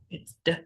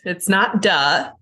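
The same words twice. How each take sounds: First: "d" said short with no vowel after; a quick "d" that stops dead, no trailing vowel; clipped correct sound. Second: "duh" with a clear added uh vowel; "duh" drawn out with a trailing uh sound; wrong sound with extra uh. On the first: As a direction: give a bare "d", no uh. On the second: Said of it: "Make sure you're not saying the uh sound afterwards". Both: Shown as a demonstration.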